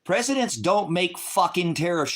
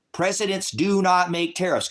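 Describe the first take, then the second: First: Said in the usual way. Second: "not" pulled apart from "do" and hit hard with a falling tune; stress on not. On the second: Shown as a demonstration. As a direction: spell it out, punching "not" as a separate word.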